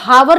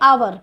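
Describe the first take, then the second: First: The word begins with an audible h sound. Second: The word begins directly with a vowel sound. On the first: The speaker calls it wrong. "इसको हावर नहीं पढ़ेंगे" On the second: The speaker calls it right. "H letter है, इसका जो voice रहती है silent रहती है"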